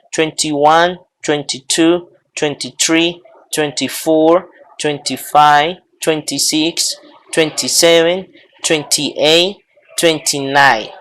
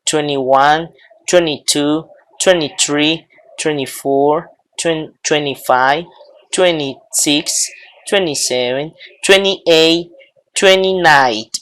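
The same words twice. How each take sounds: First: Each "twenty" as "twen-tee", T sounded; T pronounced. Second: Each "twenty" as "twenny"; silent second T. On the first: Teacher models the twenties for students, full T. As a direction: count with a clear second T in "twenty". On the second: Teacher models the alternative twenties, dropped T. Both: Shown as a demonstration. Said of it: "O pueden pronunciarlo".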